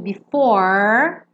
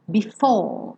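First: The R is strongly rolled, American style. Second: The R is dropped and the vowel lengthened.

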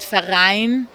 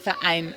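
First: The syllables run together without a glottal stop. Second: A short glottal stop separates the two syllables. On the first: The speaker calls it wrong. "weil ich sage nicht Verein" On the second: The speaker calls it right. "so ein kurzes Stopp"

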